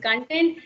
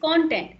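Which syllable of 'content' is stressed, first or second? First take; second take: second; first. First: The stress is on the second syllable. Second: The stress is on the first syllable. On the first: The word is used as a verb. "If you use this uh, word as a verb, of course it is content" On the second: The word is used as a noun. "and as a noun it is content"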